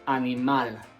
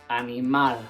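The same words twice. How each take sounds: First: The stress is on the last syllable. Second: The same.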